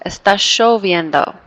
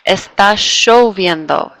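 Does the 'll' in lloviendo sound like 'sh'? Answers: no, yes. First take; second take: yes; yes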